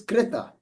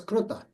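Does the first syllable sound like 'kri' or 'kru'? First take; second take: kri; kru. First: The first syllable has an 'ri' sound. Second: The first syllable has an 'ru' sound. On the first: This is the standard Sanskrit pronunciation. "The actual sound is kreta in Sanskrit" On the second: This is a regional pronunciation from western India. "in the western part of India ... they are generally pronounced as kruta"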